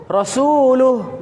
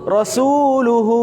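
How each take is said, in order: First: Rasuluh, cut off short at the h; short ending. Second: Rasuluhu with the final hu held long; Rasuluhu, hu drawn out. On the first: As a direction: clip the end of Rasuluh. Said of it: "Tadi rasuluh". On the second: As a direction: stretch the hu in Rasuluhu. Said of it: "kenapa hu-nya sekarang dibaca panjang?". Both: Shown as a demonstration.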